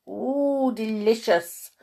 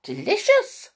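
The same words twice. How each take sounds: First: Lightly voiced bumbling bee, somewhat higher; a hint of a contented bee. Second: Very high little mouse squeak; high-pitched, delighted mouse voice; squeaky mouse. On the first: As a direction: savour it with a drawn-out "ooh". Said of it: "bumbled Buzz". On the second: Acted. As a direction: squeak it out with relish like a tiny mouse. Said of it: "squeaked Squeak".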